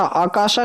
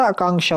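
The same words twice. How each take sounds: First: "आकाशा" with no n sound; missing nasal. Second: "आकांक्षा" with ng before sha; nasal in middle. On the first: Teacher showing students the mistake, आकाशा without nasal. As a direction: say आकाशा as "aakaasha". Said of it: "आकाशा नहीं होता". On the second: Teacher giving students the correction, आकांक्षा with the nasal. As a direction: say आकांक्षा as "aakaangsha". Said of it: "आकांक्षा होता है". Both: Shown as a demonstration.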